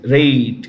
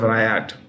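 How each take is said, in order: First: The name sounds like the word 'rate'. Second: The name sounds like the word 'riot'. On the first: The speaker calls it right. "Rate instead of riot" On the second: The speaker calls it wrong. "instead of riot"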